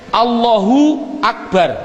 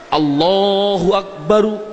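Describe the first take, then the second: First: The last word ends on a bare r. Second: The last word ends with an added u vowel. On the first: The speaker is pausing at the end of the phrase. "orang bilang akbar disukun" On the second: The full grammatical case ending is pronounced.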